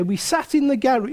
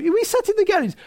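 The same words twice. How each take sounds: First: Said in the usual way. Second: GARAGE in a high-pitched, disbelieving repeat; comic disbelief, pitched well up on "sat in the garage"; incredulous repeat. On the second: Real, not acted. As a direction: say it over, voice jumping up through "sat in the garage".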